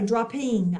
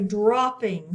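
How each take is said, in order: First: The stress is on the second syllable. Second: The stress is on the first syllable. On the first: The speaker calls it wrong. "I'm not going to say dropping" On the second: The speaker calls it right. "it's going to stress that first syllable there"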